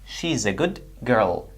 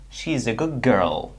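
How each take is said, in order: First: The end of 'good' is a d sound. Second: The end of 'good' is a g sound. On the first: "the d sound changed to g sound"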